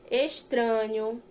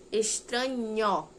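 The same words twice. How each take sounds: First: Said in the usual way. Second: "Estranho" slowly split, ending in open "nhó"; final sound isolated. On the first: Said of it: "Leia estas outras palavras". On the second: Shown as a demonstration. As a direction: draw out "Estranho" with a stressed "nhó". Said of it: "Então, formou um som". ("Estranho" devagar, destacando o "nhó" final)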